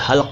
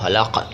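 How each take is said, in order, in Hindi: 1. L और K ध्वनियाँ बिना स्वर के जुड़ जाती हैं। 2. L और K ध्वनियों के बीच एक स्वर आता है। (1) "लेकिन ये हल्क है" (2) "मैं भी कई बार हलक बोलता हूँ"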